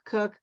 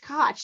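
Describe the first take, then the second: First: The name rhymes with cook. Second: The name rhymes with Scotch. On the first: The speaker calls it wrong. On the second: The speaker calls it right. "It's Koch, like Scotch"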